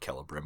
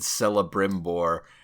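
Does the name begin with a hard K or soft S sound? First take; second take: hard K; soft S. First: The name begins with a hard K sound. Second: The name begins with a soft S sound. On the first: The speaker calls it right. "sorry, it's uh, Celebrimbor. ... They're hard, hard seas. Think Latin, Cicero" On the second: The speaker calls it wrong. "I got to correct a friend in public when he said Celebrimbor"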